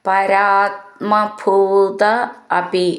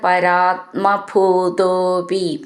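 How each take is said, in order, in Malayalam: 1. രണ്ടു വാക്കും വേറെ വേറെയാണ് ചൊല്ലുന്നത്, ചേർക്കാതെ. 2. രണ്ടു വാക്കും ചേർന്ന് ഒരു വാക്കായിട്ടാണ് ചൊല്ലുന്നത്.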